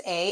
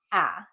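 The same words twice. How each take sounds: First: A said as "ay"; long A sound. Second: Ah as a brief open vowel, like in "cat"; the rejected short A, ah; short A sound. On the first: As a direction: say A as its own name. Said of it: "also gonna say A". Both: Shown as a demonstration.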